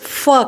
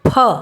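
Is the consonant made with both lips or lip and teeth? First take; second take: lip and teeth; both lips. First: Lower lip touches teeth with continuous friction. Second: Both lips close, then air bursts out. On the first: The speaker calls it wrong. "उसकी जगह लोग बहुत शान से फ कहते हैं" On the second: The speaker calls it right. "दोनों होंठ इसके लिए जुड़े और बोलने पर हवा बाहर निकले"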